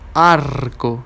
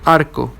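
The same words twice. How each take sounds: First: The R before the consonant is strongly trilled. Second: The R before the consonant is a soft tap. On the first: The speaker calls it wrong. "we don't say arco" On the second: The speaker calls it right. "it's soft"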